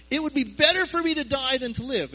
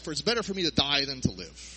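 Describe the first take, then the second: First: Whiny cry. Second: Said in the usual way. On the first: Retold or imitated. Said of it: "And said".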